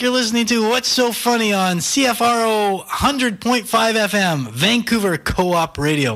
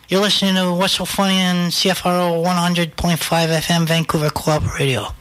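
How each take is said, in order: First: The voice is a smooth radio announcer voice. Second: The voice is a gruff tough-guy impression voice. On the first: "I feel like I should do a radio voice" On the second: "You want Pesci to do it? This is Joe Pesci"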